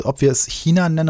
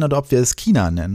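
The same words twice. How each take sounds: First: China said with a soft ich-sound. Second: China said as Kina with a hard K. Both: Shown as a demonstration. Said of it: "zwei Glaubensrichtungen".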